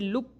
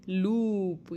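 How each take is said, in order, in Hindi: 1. स्वर छोटा और झटके से कटा हुआ है। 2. स्वर लंबा और खिंचा हुआ है। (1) "इस तरीके से नहीं पढ़ेंगे" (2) "थोड़ा सा लंबा खींच के ही पढ़ना है"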